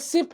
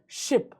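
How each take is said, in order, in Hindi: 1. यह शब्द साधारण s ध्वनि से शुरू होता है। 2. यह शब्द sh ध्वनि से शुरू होता है। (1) "आप गलत है" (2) "बिल्कुल सही बच्चों, ये है शिप"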